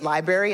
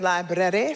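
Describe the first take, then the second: First: The word is said in a casual, clipped way. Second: The word is said in a careful, fancy way. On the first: The speaker calls it wrong. "I know that's not the way you're supposed to pronounce it" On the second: The speaker calls it right. "so it sounds fancy"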